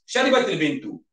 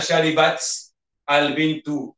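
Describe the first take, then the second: First: The words run together smoothly with a linking vowel. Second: The words are halting, with a break between them. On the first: The speaker calls it right. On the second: The speaker calls it wrong. "bacaan kita itu macam tersekat-sekat"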